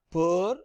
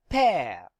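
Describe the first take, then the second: First: Per said with a neutral er vowel, the wrong way. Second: Pear with an open eh vowel, falling; correct pear. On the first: Teacher showing students the wrong way, neutral er vowel. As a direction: say per with a flat er sound. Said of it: "It is not per". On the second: Teacher showing students the right open eh vowel. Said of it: "this will be pronounced as". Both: Shown as a demonstration.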